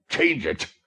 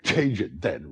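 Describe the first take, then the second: First: High, loud exasperated cry; exasperated exclamation. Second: With a laugh. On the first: Fagin exasperated by Nancy's obstinacy, loud exclamation. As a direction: explode at her stubbornness. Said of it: "exclaimed the Jew". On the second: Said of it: "responded the girl with a laugh". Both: A narrator's reading.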